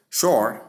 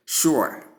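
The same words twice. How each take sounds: First: "Sure" said like "shore"; long O vowel. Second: "sure" said as "SHOO-er"; ua diphthong. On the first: Teacher showing the first pronunciation of sure, long O. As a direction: give "Sure" a long open O. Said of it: "and long O sound". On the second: Teacher showing the second pronunciation of sure, ua sound. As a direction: glide from oo to uh in "sure". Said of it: "the ua sound to give sure". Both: Shown as a demonstration.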